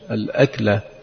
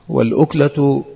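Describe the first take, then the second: First: The first vowel is an 'a' sound. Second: The first vowel is a 'u' sound. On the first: It means a single act of eating. "وأما بفتحها فهي المرة من الأكل" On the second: It means a single morsel. "بضم الهمزة اللقمة"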